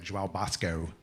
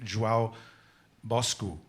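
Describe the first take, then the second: First: The name is read as spelled, English style. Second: The name is attempted with a Portuguese pronunciation. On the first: "looks like João Bosco, but I don't think that's how they say it in Brazil" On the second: "I'm going to mess up the the um, Portuguese pronunciation"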